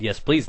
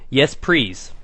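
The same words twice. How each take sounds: First: Said in the usual way. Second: "please" said with an R for the L, like "prease"; L turned to R. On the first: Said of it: "thought she said". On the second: Retold or imitated. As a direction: mimic the slip: "please" becomes "prease". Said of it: "and I quote".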